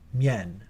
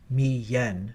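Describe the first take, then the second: First: It is said as one syllable. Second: It is split into two syllables. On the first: The speaker calls it right. "but rather mien" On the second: The speaker calls it wrong. "It's not mi-yen"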